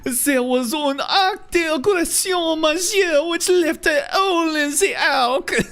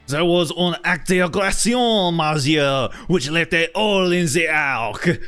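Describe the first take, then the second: First: A French-accented voice, more flamboyant in delivery. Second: A French-accented voice, less flamboyant in delivery. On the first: "a little bit more fabulous" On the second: "much more Lumiere"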